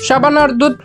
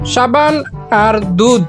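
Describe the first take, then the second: First: It is said fast. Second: It is said slowly.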